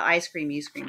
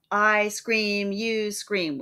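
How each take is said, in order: First: Said in the usual way. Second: "I scream, you scream" with both "I" and "scream" hit equally hard, then "you" and "scream" the same; double stress. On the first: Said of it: "The "I scream, you scream" part". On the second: Shown as a demonstration. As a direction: stamp out two strong beats on every pair of words. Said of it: "Spondies, the double stress".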